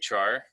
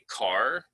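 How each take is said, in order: First: The word begins with a CH sound. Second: The word begins with a hard K sound. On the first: It follows the spelling, like the English word char. "some people say char because it's C H A R that looks like the English word char" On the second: It follows the hard C in the word character. "some people say car because it's it should be like a hard C"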